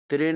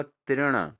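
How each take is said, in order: First: तृण said as "tren", plain n; wrong pronunciation. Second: तृण ending in retroflex n; correct pronunciation. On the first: Teacher shows students the error, तृण with plain n. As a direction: say तृण with a dental n. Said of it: "नहीं होगा दोस्तों". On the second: Teacher answers for students, तृण with retroflex n. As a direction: curl the tongue to end तृण. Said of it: "क्या होगा?". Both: Shown as a demonstration.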